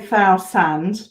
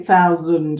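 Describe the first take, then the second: First: The middle consonant is a clear s sound. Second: The middle consonant is almost a z sound. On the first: The speaker calls it wrong. "we don't tend to say thousand though" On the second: The speaker calls it right. "It's almost a z sound there"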